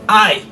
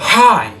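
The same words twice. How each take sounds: First: The word starts without any breathy h sound. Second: The word starts with a strong breathy h sound. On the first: The speaker calls it wrong. "c'est pas hi. Non" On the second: The speaker calls it right. "Il y a un H aspirant, c'est comme si tu essouffles"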